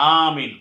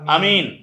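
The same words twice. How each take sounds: First: The first vowel is drawn out long. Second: The first vowel is short. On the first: It is the word said after a prayer, not in the Quran. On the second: It means trustworthy.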